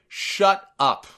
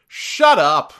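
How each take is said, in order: First: Retold, higher disgusted put-down; a milder echo of pure contempt. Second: Loud, disgusted snap. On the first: Narrator retelling Cole's line to JBL, mildly disgusted. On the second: Retold or imitated. Cole cutting off the heel announcer, disgusted. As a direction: spit it out like you can't stand him. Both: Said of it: "in the most disgusted tone that you've ever heard".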